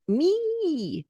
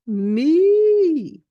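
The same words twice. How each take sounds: First: The vowel is spread wide and buzzy. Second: The vowel is shaped tall and open. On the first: The speaker calls it wrong. "not horizontal, like a kazoo" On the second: The speaker calls it right. "make sure your E is vertical"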